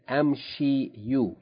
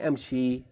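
First: The word ends with an added 'u' vowel. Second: The word ends on a plain 'i' vowel. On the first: The speaker calls it wrong. "You don't say amshi you" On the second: The speaker calls it right. "You say amshi"

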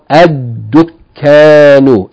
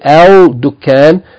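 First: The L becomes a doubled D sound. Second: The L of the article is pronounced. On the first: The speaker calls it right. "but rather double the dal" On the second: The speaker calls it wrong. "don't say al dukkan"

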